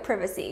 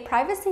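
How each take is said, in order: First: It is said in the British way. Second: It is said in the American way. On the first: "the British English way" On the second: "the American way"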